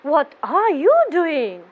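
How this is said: The voice sounds pleased. The speaker thinks it is great. "I'm trying to say that's great"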